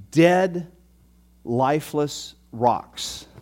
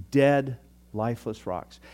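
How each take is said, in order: First: Slow, drawn-out emphasis; slow, heavy dramatic delivery. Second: Said in the usual way. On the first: Shown as a demonstration. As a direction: stretch out lifeless for weight. Dramatic image repeated for effect.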